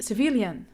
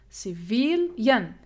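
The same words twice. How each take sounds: First: "civilian" said whole with VIL stressed; ci-VIL-ian, leaning on the middle syllable. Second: "civilian" slowly split as ci-VIL-yen; slow teacher's breakdown of "civilian", stretched VIL; syllable by syllable. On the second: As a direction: draw out "civilian", separating the final yen. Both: Shown as a demonstration. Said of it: "The stress here".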